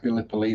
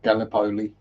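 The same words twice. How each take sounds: First: It sounds plain English, not Italian. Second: It sounds Italian, like a pasta name. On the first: The speaker calls it right. "it is pronounced Gallipoli" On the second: The speaker calls it wrong. "not Gallipoli. It's not some kind of pasta"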